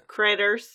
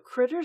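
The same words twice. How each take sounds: First: The word is said in a Texan accent. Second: The word is said in a plain accent. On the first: The speaker calls it right. "you got to say it in the accent" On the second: The speaker calls it wrong. "if you're going to say critter, you got to say it in the accent"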